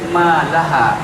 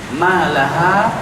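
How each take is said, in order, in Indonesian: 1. Kata ini berakhir dengan hamzah. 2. Kata ini berakhir dengan vokal terbuka.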